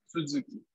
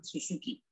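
First: The second syllable starts with a buzzing z. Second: The second syllable starts with a hissing s. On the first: The speaker calls it right. "El apellido es Suzuki" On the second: The speaker calls it wrong. "como alguien hispanohablante desconociendo el sonido vibrante de la segunda su"

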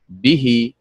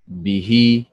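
First: The stress is on the first syllable. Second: The stress is on the last syllable. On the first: The speaker calls it right. "فتنطق به مثل فعل" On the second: The speaker calls it wrong. "ولا تنطق به مثل فعل"

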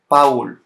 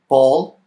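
First: The name is said with a Spanish pronunciation. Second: The name is said with an English pronunciation. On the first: "but in Spanish is Paul" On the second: "In English, his name is Paul"

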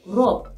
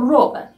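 First: The word is shortened, dropping the final vowel. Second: The word is said in full with a final vowel.

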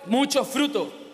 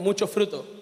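First: It is said louder. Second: It is said at normal loudness.

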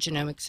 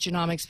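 First: The middle vowel is long, as in genome. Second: The middle vowel is short, as in economics. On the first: The speaker calls it right. "The correct way to say it is, like the human genome" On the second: The speaker calls it wrong. "A lot of people say genomics because it's more like economics"

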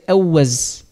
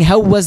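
First: The word begins with a vowel, no h. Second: The word begins with an h sound. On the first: Speakers who lacked the sound dropped it. "they would not know how to pronounce the ha" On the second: This is the original form of the name. "instead of saying hawwiz"

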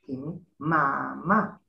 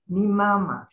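First: The pitch goes from low to high. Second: The pitch goes from high to low. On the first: "low, high" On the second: This is the general Papiamentu usage. "high, low"

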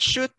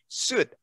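First: The word begins with an sh sound. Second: The word begins with an s sound. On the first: The speaker calls it wrong. "Not shoot" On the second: The speaker calls it right. "You say suit"

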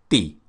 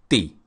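Both takes have the same delivery.

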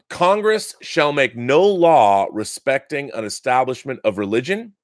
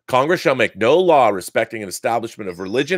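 First: It is read at a slow pace. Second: It is read at a fast pace. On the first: "I'm going to slow it down" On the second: "Was that too fast?"

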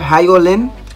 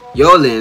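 First: The name begins with an audible H sound. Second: The name begins without any H sound. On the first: The speaker calls it right. "No, it ain't silent" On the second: The speaker calls it wrong. "H is probably silent"

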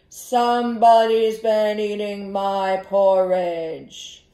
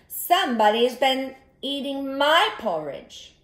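First: It is said in a big, deep voice. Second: It is said in a medium-sized voice. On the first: The largest bear is speaking. "the big voice?" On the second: The middle-sized bear is speaking. "in her medium-sized voice"

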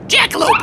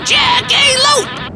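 First: The word is said very fast. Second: The word is said at normal speed.

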